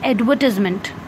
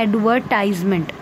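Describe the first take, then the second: First: The word is said in a British accent. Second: The word is said in an American accent. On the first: "British accent में हम कहते हैं" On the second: "American accent में हम कहते हैं"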